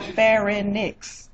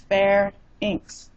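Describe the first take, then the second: First: It has a vowel sound after the n. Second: It has no vowel sound after the n. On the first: The speaker calls it wrong. "It's not pharynx. There's no I after the N" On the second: The speaker calls it right. "It's pharynx"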